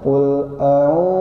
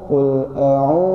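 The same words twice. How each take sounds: Both takes have the same delivery.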